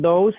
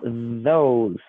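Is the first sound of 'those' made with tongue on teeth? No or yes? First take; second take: No; Yes. First: The first sound is made without tongue on teeth. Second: The first sound is made with tongue on teeth. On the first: The speaker calls it wrong. "Not those" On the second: The speaker calls it right. "sino those ... La lengua sobre los dientes"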